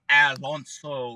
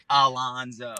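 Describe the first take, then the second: First: The middle consonant is a hissing S sound. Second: The middle consonant is a buzzing Z sound. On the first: The speaker calls it wrong. "it comes out like an S" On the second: The speaker calls it right. "that's not how you say my name. Don't ever roll. No, it's Alonzo"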